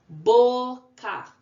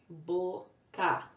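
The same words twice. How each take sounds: First: Boca called out loud and high, Bo, then ca; syllable by syllable. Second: Boca split gently into Bo, then ca; syllable by syllable. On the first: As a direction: punch a long Bo, pause, then ca. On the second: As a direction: say Bo, pause, ca without pushing. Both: Shown as a demonstration. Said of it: "Duas sílabas".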